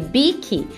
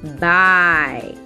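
First: It is read as Portuguese spelling would suggest. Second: It is pronounced the way English speakers say it. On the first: "se no português a gente lê bike" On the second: "a gente já sabe que a pronúncia de bike é bike"

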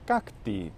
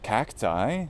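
First: The final vowel sounds like 'ee'. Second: The final vowel sounds like 'eye'. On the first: This is the Latin way of saying it. The speaker calls it right. "it's cacti" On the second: This is the English way of saying it. The speaker calls it wrong. "it's not pronounced cacti in either of the two standard pronunciations of Latin"

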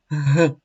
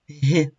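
First: The consonant is hard, not palatalized. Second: The consonant is soft, palatalized. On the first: "Твердий приголосний" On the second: "М'який приголосний"

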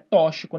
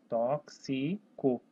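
First: The x is not pronounced as ks. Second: The x is pronounced as ks. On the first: The speaker calls it wrong. "Não é tóxico" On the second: The speaker calls it right. "esse X tem o som de KS"

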